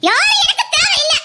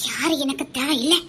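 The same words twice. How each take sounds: First: Defiant outburst. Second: Low, much softer muttered refusal; bitter murmur. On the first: Aadhira rejecting the whole world, defiant raised cry. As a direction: throw the words out at everyone. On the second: Aadhira turning her back on everyone, low bitter murmur. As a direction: say it almost to herself. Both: Acted.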